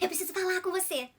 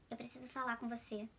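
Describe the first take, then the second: First: It is said in a happy, cheerful tone. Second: It is said in a sad, downcast tone.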